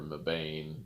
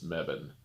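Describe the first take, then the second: First: The last syllable has a long A sound. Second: The last syllable has no long A sound. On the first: The speaker calls it wrong. "We always called it Mebane" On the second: The speaker calls it right. "apparently it's Mebane"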